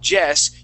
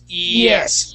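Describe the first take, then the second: First: The word begins with a J sound. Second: The word begins with a gliding Y sound. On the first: The speaker calls it wrong. "don't say Jess" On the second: The speaker calls it right. "start it off with an E sound, and you're going to slide right into it"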